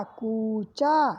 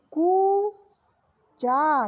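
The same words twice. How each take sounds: First: कूचा short, lower and falling; quick repeat. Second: कूचा with a very slow long ऊ; slow drawn. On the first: (कूचा जल्दी दोहराना) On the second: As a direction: stretch कूचा out. (कूचा को खींचकर) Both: Shown as a demonstration. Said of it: "का पे बड़े ऊ की मात्रा लगी".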